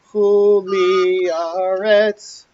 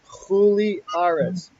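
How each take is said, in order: First: The stress falls on the second syllable of aretz. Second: The stress falls on the first syllable of aretz. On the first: The speaker calls it wrong. "You will hear people say chuli aretz" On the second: The speaker calls it right. "So it's chuli aretz"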